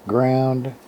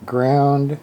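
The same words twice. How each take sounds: The two takes are said the same way.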